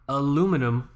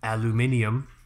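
First: The word has four syllables, American style. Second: The word has five syllables, British style.

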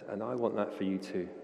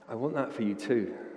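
First: It is said flatly, without much conviction. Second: It is said with more conviction.

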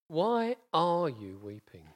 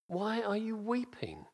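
First: The word are carries the emphasis. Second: The word weeping carries the emphasis.

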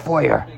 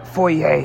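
First: It is said with an English-style pronunciation. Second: It is said with a French-style pronunciation.

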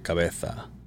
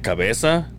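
First: The z sounds like th, Spain style. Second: The z sounds like s, Latin American style.

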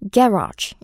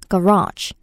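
First: The stress is on the first syllable. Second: The stress is on the second syllable. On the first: This is the British pronunciation. "영국식일 때는 이음절에 강세라서 garage, garage 이렇게 들립니다" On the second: This is the American pronunciation. "우선 미국식일 때는 이음절에 강세가 들어가요"

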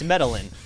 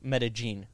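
First: The double L is said like an English L. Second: The double L is said like a hard J. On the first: This is how an American who can't pronounce Spanish says it. The speaker calls it wrong. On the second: This is how locals say it colloquially. The speaker calls it right. "colloquially, in there, they pronounce double L's like a hard J"

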